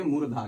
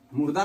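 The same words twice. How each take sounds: First: मूर्धा with a long u and an aspirated dh; correct murdha. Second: मुर्दा said with a plain d and a short u, the mistaken way; wrong murda. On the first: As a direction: give मूर्धा its breathy dh clearly. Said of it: "नहीं बोलेंगे, मूर्धा". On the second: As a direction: say मुर्दा like the word for corpse. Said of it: "मुर्दा नहीं बोलेंगे". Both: Shown as a demonstration.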